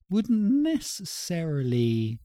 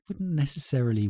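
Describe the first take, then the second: First: High, slow, drawn-out musing; slow high-pitched thinking aloud; thinking-about-food voice. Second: Said in the usual way. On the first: Real, not acted. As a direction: stretch it out high while pondering food. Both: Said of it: "my voice went really high there".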